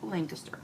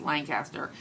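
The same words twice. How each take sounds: First: Said in the locals' own way. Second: Said in the speaker's own usual way. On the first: This is how residents say the name. The speaker calls it right. "but they pronounce it Lancaster" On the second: This is how an outsider says the name. The speaker calls it wrong. "Or I'm saying it wrong"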